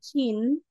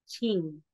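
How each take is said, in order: First: The syllable ends with an n sound. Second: The syllable ends with an ng sound. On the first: The speaker calls it wrong. "sasabihin nating N po yan" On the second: The speaker calls it right. "ang pagkakabasa na natin dyan ay ching"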